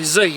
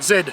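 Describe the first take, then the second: First: The letter is said the American way, zee. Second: The letter is said the Australian way, zed.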